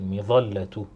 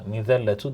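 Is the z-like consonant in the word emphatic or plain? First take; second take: emphatic; plain. First: The z-like consonant is thick, with a heavy vowel. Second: The z-like consonant is plain, with a light vowel. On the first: The speaker calls it right. "Kalın okumamız lazım" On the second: The speaker calls it wrong. "Böyle mizelletu diyebiliyorum. Halbuki bu mizelletu değil"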